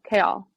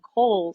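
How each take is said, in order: First: The name is said with a 'kay' sound, 'Kale'. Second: The name is said as one syllable, 'Cole'. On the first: The speaker calls it right. "It's Kale, A Y dash A L L" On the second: The speaker calls it wrong. "I would have pronounced him Cole"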